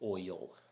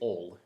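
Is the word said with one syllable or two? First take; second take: two; one. First: The word is said as two syllables. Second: The word is said as one syllable. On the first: This is how the speaker personally says it. "I say oil with two syllables" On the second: Some people in the South say it this way. "as in one, you know, just in one, just one syllable"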